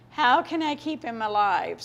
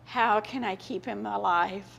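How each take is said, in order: First: Slow, pleading, a touch more strained; desperate repeat. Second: Said in the usual way. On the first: Retold or imitated. Mother fearing for her dying son, pleading slowly. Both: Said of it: "it's just like".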